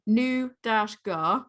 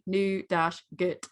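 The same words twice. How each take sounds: First: "nou dash gar" read slowly, British, ending gar; British nougat. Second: "nou dash gut" read slowly, American, ending gut; American nougat. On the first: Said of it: "British pronunciation". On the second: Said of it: "American pronunciation". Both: Shown as a demonstration.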